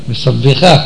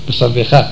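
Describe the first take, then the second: No difference in how they are said.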